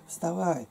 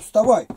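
First: It is said softly and tenderly. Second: It is said harshly and abruptly. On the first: The caller loves and cares for the sleeper. The speaker calls it right. "как мать любит ребенка" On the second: The caller has no regard for the sleeper. The speaker calls it wrong. "Это грубость"

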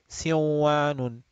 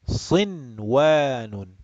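First: The n merges into the following w sound. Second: The n is pronounced clearly before the w. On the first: The speaker calls it wrong. "this will be read siwanun, which is going to be pretty funny" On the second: The speaker calls it right. "we read it like this"

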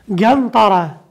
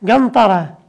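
Both takes have the same delivery.

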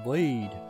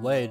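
First: The vowel is a long 'ee', like 'leed'. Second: The vowel is a short 'eh', like 'led'. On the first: The speaker calls it right. "he should have spelt it L-E-E-D then" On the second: The speaker calls it wrong. "Instead of saying lead"

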